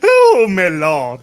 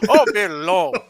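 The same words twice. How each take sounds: First: Louder, slow and stretched; loud slow drawn exclamation. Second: Louder, laughing and higher; laughing echo. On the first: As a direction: draw it out in mock shock. Exaggerated exclamation. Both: Real, not acted.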